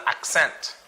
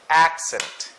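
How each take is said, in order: First: Accent stressed on the second syllable, "ak-SENT"; wrong stress. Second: Accent hit on the opening "AK", then falling; stress on first syllable. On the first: Teacher shows the mistake, accent stressed on the last syllable. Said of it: "So it's not accent". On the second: Teacher corrects the stress, Accent as "AK-sent". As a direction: say Accent as "AK-sent", punching the start. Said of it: "first syllable". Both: Shown as a demonstration.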